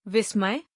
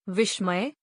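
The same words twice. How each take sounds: First: विस्मय with a plain s, "vismay"; plain s sound. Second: विस्मय with sh in the middle, "vishmay"; sh sound. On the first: Teacher gives word for surprise, विस्मय with plain s. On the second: Teacher gives word for poisonous, विस्मय said with sh. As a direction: turn the स of विस्मय into sh. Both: Shown as a demonstration. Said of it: "उच्चारण एवं वर्तनी की शुद्धता".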